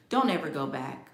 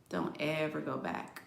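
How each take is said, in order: First: Said in the usual way. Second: Quiet repeat. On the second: Shown as a demonstration. Warning viewers off a Cancer ex, hushed echo. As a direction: let it drop to a hushed aside.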